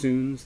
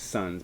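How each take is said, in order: First: The vowel sounds like the vowel in soon. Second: The vowel sounds like the vowel in sun. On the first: The speaker calls it right. "it's pronounced Soons" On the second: The speaker calls it wrong. "some people mispronounce this as Sons"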